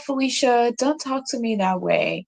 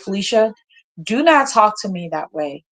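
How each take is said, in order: First: It is said softly and with less force. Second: It is said forcefully and intensely. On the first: The speaker is not firm or consistent. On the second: The speaker is firm and serious.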